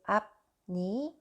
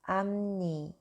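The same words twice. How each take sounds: First: The first syllable ends in a p sound. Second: The first syllable ends in an m sound. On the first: The speaker calls it wrong. "we don't say" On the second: The speaker calls it right. "just say"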